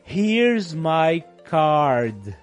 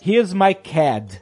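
First: It is said in a neutral accent. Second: It is said in a New Zealand accent.

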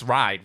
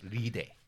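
First: It is said with an English pronunciation. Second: It is said with a Japanese pronunciation. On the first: This is the technically correct form. "technically it's ride" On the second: This is how native speakers commonly say it. "Japanese people will say ride"

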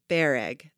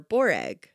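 First: The first vowel sounds like 'e'. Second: The first vowel sounds like 'o'. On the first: The speaker calls it right. "pronounced bereg" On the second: The speaker calls it wrong. "I see I already said it wrong"

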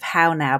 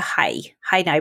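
First: The vowel in 'how' sounds like 'ow'. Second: The vowel in 'how' sounds like 'hi'. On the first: "instead of" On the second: "That's the way they say it in Belfast"

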